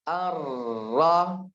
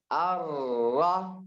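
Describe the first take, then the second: No difference in how they are said.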